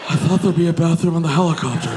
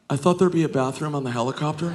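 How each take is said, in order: First: Rapid, put-on movie-nerd voice; Napoleon Dynamite. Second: Quick, understated dopey reply; a hint of movie-nerd delivery, said fast; lightly voiced Napoleon Dynamite. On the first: Comic replays his excuse to the crowd, Napoleon Dynamite impression. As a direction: rush it out as a hammed-up awkward movie nerd. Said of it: "I said it exactly like Napoleon Dynamite". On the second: Passenger explains himself to his friend, lightly imitating Napoleon Dynamite. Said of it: "said it exactly like Napoleon Dynamite".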